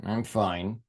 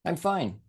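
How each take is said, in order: First: A low mumbled fine that means the opposite; low, soft and grudging. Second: Plain. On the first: Teacher showing students a sulky reply. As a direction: drop the pitch and say it under your breath, unconvinced. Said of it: "same words". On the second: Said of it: "different tones and emphasis". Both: Shown as a demonstration.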